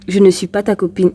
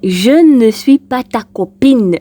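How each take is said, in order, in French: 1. Elle est prononcée avec un accent standard, neutre. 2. Elle est prononcée avec un fort accent régional.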